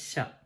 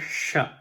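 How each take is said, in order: First: The sh is made front in the mouth, loosely. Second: The sh is made back in the mouth, tensely. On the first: "It's very loose uh, and from the front of the mouth" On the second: "Sha from the back of your mouth with more effort"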